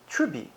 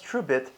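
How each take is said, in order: First: The word ends without the final t. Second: The word ends with a clear final t.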